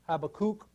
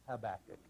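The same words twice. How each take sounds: First: The name is said with Hebrew pronunciation. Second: The name is said with English pronunciation. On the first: "In Hebrew it's Habakkuk" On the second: "but I like Habakkuk"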